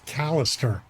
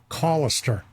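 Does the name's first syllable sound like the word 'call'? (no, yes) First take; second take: no; yes. First: The first syllable does not sound like 'call'. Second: The first syllable sounds like the word 'call'. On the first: The speaker calls it wrong. "I've been mispronouncing his name all these years" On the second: The speaker calls it right. "Like call him Callister"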